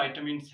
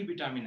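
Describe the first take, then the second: First: "विटामिन्स" said as VAI-tuh-mins; English-style "विटामिन्स", vai-tuh-mins; correct pronunciation. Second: "विटामिन" said as vi-TAA-min; Hindi-style "विटामिन", vi-taa-min; wrong pronunciation. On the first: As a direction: open "विटामिन्स" with "vai", like "vie". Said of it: "जो सही pronunciation है". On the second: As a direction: say "विटामिन" with short "vi" and long "taa". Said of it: "ना कि विटामिन है". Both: Shown as a demonstration.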